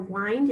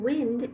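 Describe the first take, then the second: First: The vowel is a long i, rhyming with mind. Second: The vowel is a short i, as in sit. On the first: Turning or winding something up. "wind is like mind and find" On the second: Moving air outdoors. "we use the short letter I"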